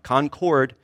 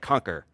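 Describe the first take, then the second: First: The word ends with a full 'cord' sound. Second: The word ends with a reduced 'ker' sound. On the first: This is the way the locals do not say it. "We don't say Concord because we're not trying to conquer something" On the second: This is the speaker's own way of saying it. "That's how I say it"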